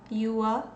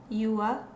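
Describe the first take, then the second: Both takes have the same delivery.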